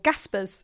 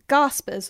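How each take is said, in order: First: It is said in a Northern English accent. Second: It is said in a non-Northern English accent.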